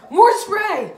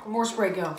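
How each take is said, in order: First: High, loud call for more spray; loud urging. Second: Said in the usual way. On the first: Real, not acted. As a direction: shout it to push him on.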